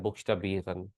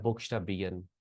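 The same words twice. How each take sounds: First: बीगन with R made a throaty gh; German back-of-throat R in बीगन; guttural R. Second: बीएन with the R melted into a vowel. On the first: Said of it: "आर को ग भी कर देते हैं". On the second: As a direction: say बीएन with no consonant R, just a soft vowel glide. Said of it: "या आर को ग भी कर देते हैं". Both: Shown as a demonstration.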